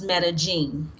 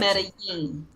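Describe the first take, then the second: First: The double L sounds like a J. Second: The double L sounds like a Y. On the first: It is said the South American way. "the two L's sound like a J" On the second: It is said the Latin or Central American way. "the two L's are pronounced as a Y"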